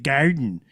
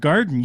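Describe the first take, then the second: First: Garden with a Michigan twang on the vowel; Michigan accent. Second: Said in the usual way. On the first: Retold or imitated. Teasing a Michigander about their accent, garden in Michigan accent. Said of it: "you're from Michigan". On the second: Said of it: "If you say the word garden".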